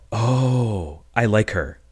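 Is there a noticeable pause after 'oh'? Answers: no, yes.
yes. A beat of pause comes after 'oh'. The line lands as an actual joke. The speaker calls it right. "How about"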